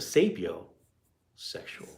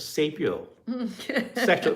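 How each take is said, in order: First: There is a pause between sapio and sexual. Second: The word is said smoothly without a pause. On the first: The speaker calls it wrong. "if you pause, then it makes it weird" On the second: The speaker calls it right. "you gotta say it together"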